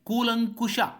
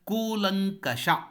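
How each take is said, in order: First: The vowel after 'kulank' is 'u'. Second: The vowel after 'kulank' is 'a'. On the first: The speaker calls it wrong. "ಬಹಳಷ್ಟು ಮಂದಿ ಕೂಲಂಕುಷ ಅಂತ ಬಳಸ್ತಾರೆ. ಅಲ್ಲ" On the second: The speaker calls it right. "ಕೂಲಂಕಷ ಎನ್ನುವುದು ನಮಗೆ ನೆನಪಿರಬೇಕು"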